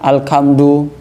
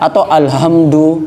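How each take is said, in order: First: The middle consonant is a k sound. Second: The middle consonant is a plain h. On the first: "Ha diganti kaf" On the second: "pakai h"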